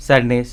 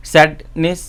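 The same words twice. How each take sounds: First: Said in the usual way. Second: "sadness" as two parts, sad, then নেস; split at the suffix. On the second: Shown as a demonstration. ("Sadness" দুই ভাগে আলাদা করে বলা) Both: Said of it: "When there is a suffix".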